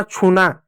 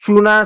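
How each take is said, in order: First: छूना with a puff of air, "chhoo-na"; slow, careful aspirated छूना. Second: चूना with a plain, unpuffed "ch"; slow, careful चूना without aspiration; unaspirated ch. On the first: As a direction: release a strong breath after the first sound of छूना. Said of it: "जैसे छूना". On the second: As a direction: start चूना on a dry "ch", long "oo". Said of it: "जैसे चूना". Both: Shown as a demonstration.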